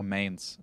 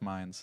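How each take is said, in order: First: The name is pronounced with English sounds. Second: The name is pronounced with German sounds. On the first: The speaker calls it wrong. "I started pronouncing even German ship names English" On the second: The speaker calls it right. "instead of"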